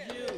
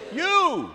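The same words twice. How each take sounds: First: Said in the usual way. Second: Higher, louder "You."; a louder response shout; louder call. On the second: Shown as a demonstration. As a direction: call it out so the back row hears. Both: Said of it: "Oh, I didn't hear that".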